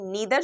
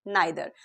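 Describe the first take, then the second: First: The first vowel sounds like 'ee', American style. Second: The first vowel sounds like 'eye', British style. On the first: "नीदर जो pronunciation है वो किया जाता है American accent में" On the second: "British accent में इसको बोला जाता है नाइदर"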